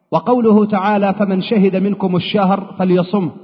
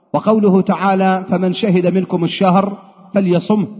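Both takes have the same delivery.

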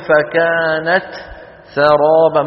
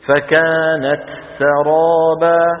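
First: A short silent gap separates the two words. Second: The two words run together with no gap. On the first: The speaker calls it wrong. "ولا نقول فكانت سرابا، ما نترك فجوة صوتية" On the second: The speaker calls it right. "بتجيب همسة التاء وعلى طول"

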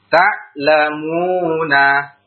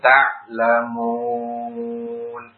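First: The word ends on a final short vowel. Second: The word stops on the n sound. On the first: The word is joined to what follows. "Kalau antum sambung, dibaca sebagai apa? Mat tobi'i" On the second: The reader stops at this word. "Ketika waqaf baru dibaca sebagai mad arif li sukun"

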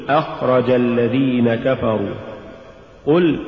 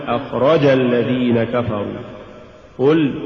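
Both takes have the same delivery.

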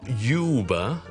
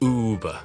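First: It begins with a 'you' sound, as in YouTube. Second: It begins with a plain 'oo' sound, no 'y'. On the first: The speaker calls it wrong. "It's not Uber, 不是YouTube 的U" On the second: The speaker calls it right. "it's Uber"

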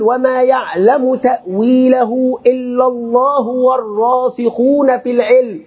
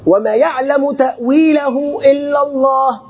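First: The reading runs on past Allah without stopping. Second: The reading stops fully after the word Allah. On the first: Those firm in knowledge also know the meaning. "فتصل وتقول" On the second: Only God knows the true nature of unseen things. "لابد أن يكون الوقف في القراءة لازما عند كلمة الله"

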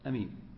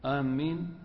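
First: The first vowel is short, with a single m. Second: The m sound is doubled and held longer. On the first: The speaker calls it right. "ويجوز القصر، يعني تقول أمين أمين بدون إيش مد الهمزة" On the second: The speaker calls it wrong. "إذا شدد الميم"

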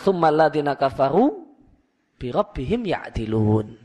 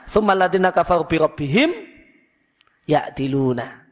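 First: There is a pause right after kafaru. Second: There is a pause right after rabbihim. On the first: 'With their Lord' belongs with 'set up equals', not with 'disbelieve'. The speaker calls it right. "kalau mau dibuat jeda atau koma" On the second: 'With their Lord' belongs with 'disbelieve'. The speaker calls it wrong.

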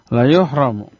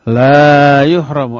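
First: The first vowel is held short. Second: The first vowel is held long. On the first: The person will surely be held back. The speaker calls it right. "La-nya la pendek, dibacanya pendek, tidak boleh panjang" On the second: The person will not be held back. The speaker calls it wrong. "Kalau dibaca panjang, terbalik artinya"

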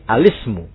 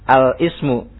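First: The article's l runs straight into the word. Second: The word's first vowel starts separately after the article. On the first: The speaker calls it right. "lam juga itu sudah di tengah namanya" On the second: The speaker calls it wrong. "bacanya jangan al-ismu ya. Salah gitu ya"

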